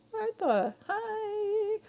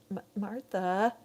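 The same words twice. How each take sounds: First: Higher, delighted cry of the name; joyful squeal of Martha; excited greeting. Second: Said in the usual way. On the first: Real, not acted. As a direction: greet a friend you're thrilled to see.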